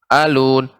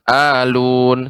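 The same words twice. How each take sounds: First: The a vowel is kept short. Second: The a vowel is held long. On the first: The speaker calls it right. "yang tepat alun, alun langsung seperti itu" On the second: The speaker calls it wrong. "ditekan alun sehingga A-nya menjadi panjang"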